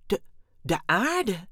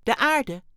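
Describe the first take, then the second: First: Slow, stunned stammer on the first word. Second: High, loud alien voice; alien announcing prize. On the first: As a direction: repeat it haltingly in disbelief. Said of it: "stamelde Dexter". (verbijsterd stamelend) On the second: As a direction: announce it brightly and firmly. (hoog en luid aangekondigd) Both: A narrator's reading.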